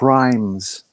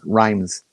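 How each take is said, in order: First: An h sound comes before the r. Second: It begins with a plain r sound. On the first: The speaker calls it right. "the H belongs there" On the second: The speaker calls it wrong. "You're just pronouncing it wrong"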